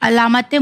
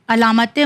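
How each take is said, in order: The two takes are said the same way.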